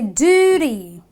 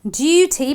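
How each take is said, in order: First: The first vowel is a long oo. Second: The first vowel is not a long oo. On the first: The speaker calls it right. "but I say duty. ... So the long oo sound" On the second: The speaker calls it wrong. "I don't say duty"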